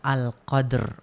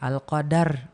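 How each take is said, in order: First: No vowel comes between the final d and r. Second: An extra vowel comes between the final d and r. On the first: The speaker calls it right. "Kalau nyebutnya Al-Qadr" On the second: The speaker calls it wrong. "jangan Al-Qadar"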